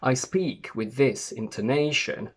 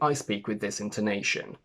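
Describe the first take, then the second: First: The pitch swings up and down strongly. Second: The pitch moves up and down only gently. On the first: It may sound detached and cold. "In my natural accent, my intonation is very marked. I go up and down a lot" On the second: It sounds friendlier and more welcoming. "I still have the pattern typical to British intonation, but I think it's less marked"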